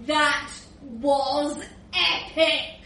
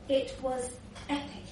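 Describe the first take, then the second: First: Slow, stretched EPIC; relishing the memory. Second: Softer, hushed EPIC; awed reminiscence. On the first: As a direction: savour the word epic, drawing it out. Rudolph relishing his party memories. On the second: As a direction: drop the volume and savour it privately. Same memory, softer second take. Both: Acted.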